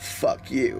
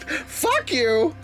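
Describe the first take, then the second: First: It is said in a normal speaking voice. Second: It is said in a squawking, bird-like voice. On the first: The speaker calls it wrong. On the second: The speaker calls it right.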